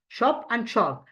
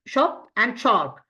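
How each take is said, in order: First: Said in the usual way. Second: Slow, careful demo of "shop and shark" with a clear "sh"; slow model. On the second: Shown as a demonstration. Teacher showing students how to say S H, slowly. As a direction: draw out "shop" and "shark" for learners. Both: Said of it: "pronunciation of S H".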